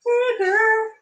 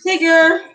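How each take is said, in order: First: Very high sing-song call; sing-song pet call. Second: Louder, higher call to pet; calling a cat. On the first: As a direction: coax the cat sweetly. Calling the cat sing-song. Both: Real, not acted.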